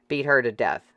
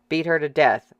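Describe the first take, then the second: First: Said in the usual way. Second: Louder shouted agreement from the crowd; a voice in the crowd shouting agreement. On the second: Acted. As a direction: yell it along with the mob. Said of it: "someone shouted in agreement".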